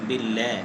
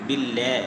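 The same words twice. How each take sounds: The two takes are said the same way.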